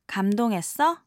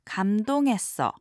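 First: The voice rises at the end. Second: The voice falls at the end. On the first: It asks whether the listener was impressed. "the casual past tense question form asking the listener" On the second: It states that the speaker is touched. "drop the intonation and just simply say"

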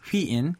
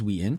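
First: The name begins with a breathy h sound. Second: The name begins directly with a w sound. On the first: This is how it is said in Korean. "The Korean pronunciation is Hween" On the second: This is how it is said in English. "English is Ween"

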